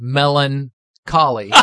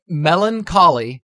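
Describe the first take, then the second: First: Melancholy said slowly, stress on MEL; Melancholy drawn out, carefully corrected; correct pronunciation. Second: Melancholy said with a laugh, stress on lan; Melancholy mangled mid laugh; mispronounced. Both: Shown as a demonstration. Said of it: "not Melancholy, Melancholy".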